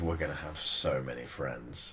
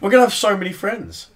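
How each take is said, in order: First: It is said in a creepy, sinister tone. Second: It is said in a plain, ordinary tone.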